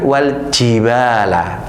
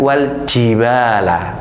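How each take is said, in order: First: The j sound is hissed like a sibilant. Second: The j sound is hissed like a sibilant.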